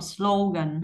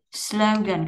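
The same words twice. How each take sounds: First: "slogan" with a pure Vietnamese O, no glide. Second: Said in the usual way. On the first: Shown as a demonstration. Teacher showing the mistake, Vietnamese O in "slogan". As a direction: keep the O in "slogan" a single vowel. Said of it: "không phải là âm O giống như tiếng Việt". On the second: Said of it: "các bạn không đọc slogan".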